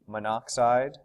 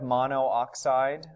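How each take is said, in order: First: It is said fast with the vowels slurred together. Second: Mono and oxide are said as separate parts. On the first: "we say it really fast and it kind of slurs into just monoxide" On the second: "it's kind of like monoxide"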